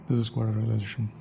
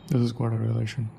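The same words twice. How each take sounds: Both takes have the same delivery.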